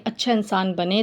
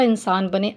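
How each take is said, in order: First: अच्छा lifted with a rising tune; stress on अच्छा. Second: Said in the usual way. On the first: Shown as a demonstration. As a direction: lean on the word अच्छा.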